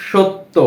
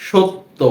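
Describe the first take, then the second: No difference in how they are said.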